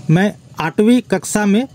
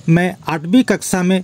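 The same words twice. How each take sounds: The two takes are said the same way.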